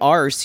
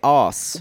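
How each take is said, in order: First: The word is said the American way. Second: The word is said the British way. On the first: The speaker calls it wrong. "You don't say arse" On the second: The speaker calls it right. "You say aws"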